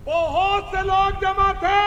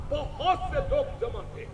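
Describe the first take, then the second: First: "बहुत से लोग जमा थे" said higher and slower, stretched out; emphatic repeat. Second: Said in the usual way. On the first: Acted. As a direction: lift and drag the repeat so it lands. Preacher repeats phrase for emphasis. (दोहराते हुए ज़ोर देकर, ऊँचे सुर में धीरे)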